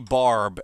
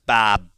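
First: It is said with the r pronounced. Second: It is said in a Massachusetts accent, no r.

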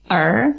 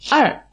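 First: The tone is not a sharp fall. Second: The tone falls sharply. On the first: The speaker calls it wrong. "jadi bukan Er" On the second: The speaker calls it right. "tapi Er. Dengan nada 4"

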